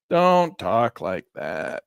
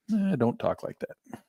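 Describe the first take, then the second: First: Slow, louder, mock-stern repeat; hammed-up stern warning; drawn-out scolding. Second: Slower, light tut-tut telling off; half-joking "don't say that"; playful mild reproach; mild scolding. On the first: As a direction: stretch it out like a mock-stern parent. Repeats the scolding more emphatically. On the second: Pretend. Mock scolding of Elaine.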